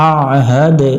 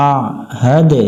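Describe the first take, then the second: No difference in how they are said.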